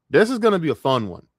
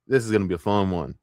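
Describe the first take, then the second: First: Higher, louder, eager announcement; hyped up. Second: Said in the usual way. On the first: Real, not acted. Streamer about to rip on a commentator, hyped up. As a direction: punch it up with gleeful anticipation. Same line repeated with more hype.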